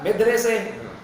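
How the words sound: The vowels are said as 'e'.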